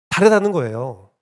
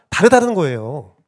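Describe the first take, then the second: Both takes have the same delivery.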